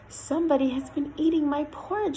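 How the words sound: The voice is quiet and soft. "in a quiet voice"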